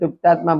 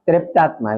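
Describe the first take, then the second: First: It is said with a Gujarati pronunciation. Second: The first syllable has an 'e' vowel sound. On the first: "આપણે ગુજરાતીમાં તૃપ્તાત્મા બોલીએ" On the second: "દક્ષિણ ભારતમાં ત્રેપ્તાત્મા એવું બોલે, ઉપર માત્ર જેવું બોલે"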